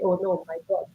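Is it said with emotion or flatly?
flatly. It is said flatly, without emotion.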